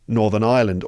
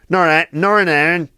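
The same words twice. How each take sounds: First: It is said in a standard English accent. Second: It is said in a Northern Irish accent.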